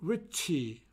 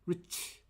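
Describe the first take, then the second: First: An extra vowel is added after the final consonant. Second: It ends on the consonant with no vowel. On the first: The speaker calls it wrong. "rich라고 하는데요" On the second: The speaker calls it right. "rich가 아니고 rich"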